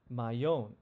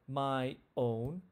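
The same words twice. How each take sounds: First: A y sound links the two words together. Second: The two words are kept apart without linking. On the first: The speaker calls it right. "we say my own" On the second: The speaker calls it wrong. "we don't say my own"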